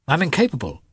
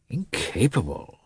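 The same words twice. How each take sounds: First: High-pitched confession of failure; helpless, higher-pitched admission; guilty admission. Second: Slow, softer echo of disbelief; slow, doubting repeat; questioning echo. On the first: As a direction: admit it guiltily, voice raised in pitch. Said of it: "said Lievin guiltily". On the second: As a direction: throw the word back, drawn out and soft. Brother echoes the confession back questioningly. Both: A narrator's reading.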